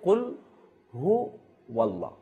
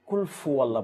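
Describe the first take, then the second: First: The second word begins with an h sound. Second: The second word begins with an f sound. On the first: The speaker calls it right. "অর্থাৎ উচ্চারণ হচ্ছে কুল হু ওয়াল্লাহ" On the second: The speaker calls it wrong. "আমরা অনেক কিছু ভুল করে থাকি, সেটা হচ্ছে কুল ফু আল্লাহ বলে থাকি"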